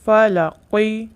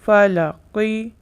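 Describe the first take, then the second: Both takes have the same delivery.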